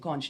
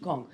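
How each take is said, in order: First: Conch is said with a non-Bahamian pronunciation. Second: Conch is said with a Bahamian pronunciation. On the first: The speaker has not yet adapted to the culture. "how quickly they switch from" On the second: The speaker has adapted to the culture.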